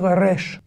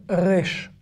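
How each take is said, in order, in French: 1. Le R est roulé, avec un trille. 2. Le R n'est pas roulé, il est légèrement en arrière. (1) "c'est vraiment les séfarades qui vont le prononcer comme ça, en R roulé" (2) "c'est avec l'accent israélien"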